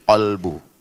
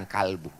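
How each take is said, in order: First: "kolbu" with a rounded o in the first syllable; correct pronunciation. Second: "kalbu" with an open a in the first syllable; wrong pronunciation. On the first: Preacher correcting the word for heart, "kolbu" with an o. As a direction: say "kolbu" with KOL, not KAL. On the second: Preacher showing the mistaken word, "kalbu" with an a. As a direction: say "kalbu" with KAL, not KOL. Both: Shown as a demonstration. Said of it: "bukan kalbu".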